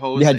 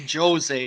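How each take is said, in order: First: The name is said a non-Brazilian way. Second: The name is said the Brazilian Portuguese way. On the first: The speaker calls it wrong. "You don't say" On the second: The speaker calls it right. "if you're Brazilian, you say Jose"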